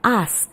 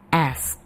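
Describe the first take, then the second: First: It is said with a British vowel. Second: It is said with an American vowel. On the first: "kalau dalam British English" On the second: "kalau dalam American English ... kesannya seperti A E"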